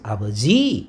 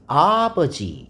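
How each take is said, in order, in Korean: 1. 강세는 세 번째 음절에 있어요. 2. 강세는 첫 번째 음절에 있어요. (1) "지혜가 강세가 있으면" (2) "아에가 강세가 있을 수 있습니다"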